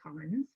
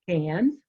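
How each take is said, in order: First: The vowel sounds like the one in 'con'. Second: The vowel sounds like the one in 'can'. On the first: This is how some visitors say it. The speaker calls it wrong. "my Bahamian family, we laugh because they like to say cons" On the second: This is how the locals say it. The speaker calls it right. "but it's cans. And that's how the locals pronounce it"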